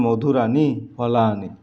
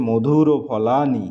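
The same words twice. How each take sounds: First: মধুরানি ending in a long aa plus ni; corrected form demo. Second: মধুর ও ending in an o before ফলানি; wrong form demo. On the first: Teacher gives the corrected pronunciation, মধুরানি ending in aani. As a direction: say মধুরানি as madhuraani, rhyming with ফলানি. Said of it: "শুদ্ধ উচ্চারণ". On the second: Teacher reads out another mistake, মধুর ও ending in o. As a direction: say মধুর ও as madhuro, then ফলানি. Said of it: "এটাও ভুল". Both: Shown as a demonstration.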